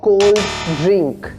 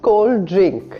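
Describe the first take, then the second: First: Both d sounds are said separately. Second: The d sounds merge into one longer sound. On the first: The speaker calls it wrong. "It's not" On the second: The speaker calls it right. "It just becomes one single sound, just a little bit longer"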